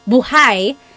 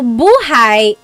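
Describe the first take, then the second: First: The stress is on the second syllable. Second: The stress is on the first syllable. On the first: It means alive. "the emphasis is on the second syllable" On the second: It means life. "So buhay is life"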